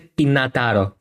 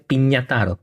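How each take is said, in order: First: The second syllable is a plain 'na'. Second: The second syllable is a palatal 'nia'. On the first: The speaker calls it wrong. "ούτε πινατάρο" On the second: The speaker calls it right. "Είναι πινιατάρο. Πινιά. Έπωσε νιά"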